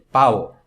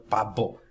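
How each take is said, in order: First: The lips stay apart for a soft b. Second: The lips close fully for a hard b. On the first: The speaker calls it right. "é pau ... nesse som nós não estamos juntando os lábios" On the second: The speaker calls it wrong. "não é pabo"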